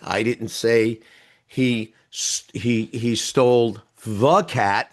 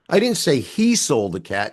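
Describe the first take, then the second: First: The stress falls on the word the. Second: The stress falls on the word he. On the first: It was not that particular cat. "There were a lot of cats" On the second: A different person took the cat. "She did"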